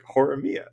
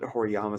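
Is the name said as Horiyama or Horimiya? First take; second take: Horimiya; Horiyama. First: The name is said as Horimiya. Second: The name is said as Horiyama. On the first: The speaker calls it right. "It's like Horimiya" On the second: The speaker calls it wrong. "I called it Horiyama so much"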